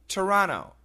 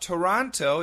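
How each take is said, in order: First: It is said fast with syllables reduced. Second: All three syllables are said clearly and fully.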